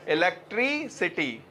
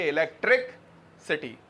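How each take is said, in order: First: इलेक्ट्रिसिटी said as one smooth word; इलेक्ट्रिसिटी, no break between इलेक्ट्रिक and सिटी; correct electricity. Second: इलेक्ट्रिक सिटी split in two with a pause before सिटी; इलेक्ट्रिक, pause, सिटी, like two words; wrong split electric city. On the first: Teacher corrects class, says इलेक्ट्रिसिटी as one word. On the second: Teacher shows students' wrong split, इलेक्ट्रिक सिटी. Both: Shown as a demonstration. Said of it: "इलेक्ट्रिक सिटी होती है या इलेक्ट्रिसिटी".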